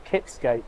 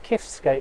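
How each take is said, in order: First: The consonant after 'Ki' is a P sound. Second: The consonant after 'Ki' is an F sound.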